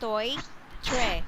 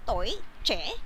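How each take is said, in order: First: The second syllable starts with a 'tr' sound. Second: The second syllable starts with a 'ch' sound. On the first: It is read letter by letter like English. The speaker calls it wrong. "just English, but it's different" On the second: It is how the word is really said. The speaker calls it right. "It's toy, che"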